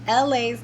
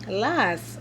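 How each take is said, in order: First: The name is said as separate letters. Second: The name is said as one word. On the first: The speaker calls it right. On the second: The speaker calls it wrong.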